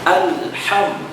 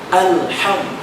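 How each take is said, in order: The two takes are said the same way.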